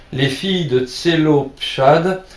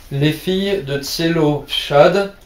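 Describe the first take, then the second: No difference in how they are said.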